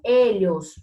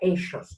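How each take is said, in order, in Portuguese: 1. O duplo L soa como um 'ly' palatal. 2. O duplo L soa como o som de 'sh'. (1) "Eu opto por L H" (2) "Na Argentina vocês vão ouvir eixos"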